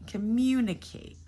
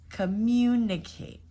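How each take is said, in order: Both takes have the same delivery.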